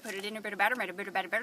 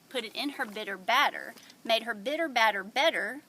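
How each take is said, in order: First: It is said very fast, auctioneer style. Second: It is said slowly and carefully.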